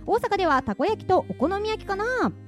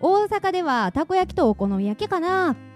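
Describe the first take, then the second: First: It is read in a standard Japanese accent. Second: It is said in an Osaka dialect accent.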